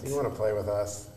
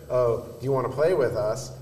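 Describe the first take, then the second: First: It sounds cold and unwelcoming. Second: It sounds friendly and welcoming.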